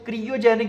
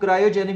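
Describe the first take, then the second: First: The first syllable has a short 'ee' vowel. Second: The first syllable has an 'eye' vowel. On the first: "कुछ इसको क्रियोजेनिक भी पढ़ते हैं" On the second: "कुछ इसको क्रायोजेनिक भी पढ़ते हैं"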